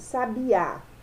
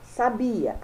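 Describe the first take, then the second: First: The stress is on the last syllable. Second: The stress is on the second syllable. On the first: It names a songbird. "a última sílaba tônica" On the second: It means someone knew. "a penúltima sílaba"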